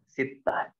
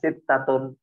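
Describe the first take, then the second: First: The word stops short without its case ending. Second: The word is said with its full case ending. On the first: "Diwakafkan sittah" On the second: "muannasnya sittatun"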